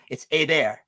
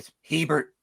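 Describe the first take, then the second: First: The name is said with a French pronunciation. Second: The name is said with an American pronunciation. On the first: This is how it is said in France, Canada or Louisiana. "That's the French pronunciation" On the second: This is how it is said in the United States. "If you're in the United States, it's boring"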